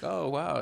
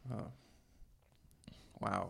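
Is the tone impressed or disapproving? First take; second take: impressed; disapproving. First: It sounds genuinely impressed and admiring. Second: It sounds disapproving and unimpressed.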